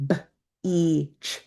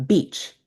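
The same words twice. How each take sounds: First: B-E-Ch stretched into separate sounds, slow; sounded out slowly. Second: Said in the usual way. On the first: Shown as a demonstration. Teacher modelling "B-E-Ch" slowly for a student, sound by sound. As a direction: segment "B-E-Ch" sound by sound for a young reader. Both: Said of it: "say the word beach together slowly".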